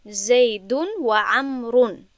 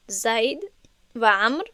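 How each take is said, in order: First: Slow vowelled reading. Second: Said in the usual way. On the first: Shown as a demonstration. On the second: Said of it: "اعراب ها و حرکت ها رو ننویستم".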